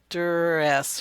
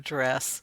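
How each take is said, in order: First: An extra weak vowel separates the d and r. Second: The d and r join with no vowel between. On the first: The speaker calls it wrong. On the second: The speaker calls it right.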